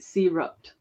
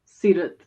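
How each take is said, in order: First: The r sound is plain, not rolled. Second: The r sound is rolled. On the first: This is an English-style approximation of the name. "The closest anglicized would be Seerut" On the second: This is the name's original pronunciation. "the traditional Seerut. Way"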